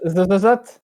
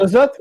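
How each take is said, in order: First: Trying out a heavy lisp. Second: Said in the usual way. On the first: Shown as a demonstration. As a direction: lisp hard on every z. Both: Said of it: "ce serait mieux si tu zozotais".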